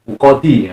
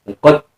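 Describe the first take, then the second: First: The word ends with a short vowel after d. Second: The word stops on d with a bounce. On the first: "asalnya kan uqadi" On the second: "Asalnya kasrah kemudian diwakaf yang menjadi uqad"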